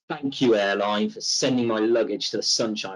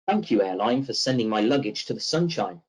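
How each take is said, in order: First: The tone sounds negative and displeased. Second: The tone sounds positive and upbeat. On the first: The customer is openly unhappy. "it's a, a negative tone" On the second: It may be meant sarcastically. "I may have said that in a positive tone"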